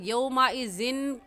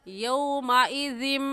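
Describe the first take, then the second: First: The word ends with an n sound. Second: The word ends with an m sound. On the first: The speaker calls it wrong. "यौमइज़िन कहना गलत होगा" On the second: The speaker calls it right. "सही है यौमइज़िम"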